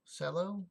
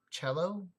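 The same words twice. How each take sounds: First: Cello with a soft s, like sello, rising; alternate pronunciation. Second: Cello with a hard ch, like the instrument, rising; testing a pronunciation. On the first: Streamer comparing Cello sounds for chat, s version. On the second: Streamer sounding out Cello for chat, trying the ch. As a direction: try Cello as chello. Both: Shown as a demonstration. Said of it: "maybe it's Monticello".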